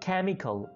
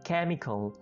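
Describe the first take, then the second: Both takes have the same delivery.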